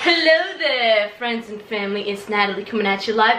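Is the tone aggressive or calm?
aggressive. It is said in an aggressive tone.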